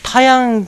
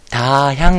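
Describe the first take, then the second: First: The second syllable is a plain 'ya' sound. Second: The second syllable is an 'hya' sound. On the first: The speaker calls it wrong. "タヤンより" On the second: The speaker calls it right. "タヒャンがいいね"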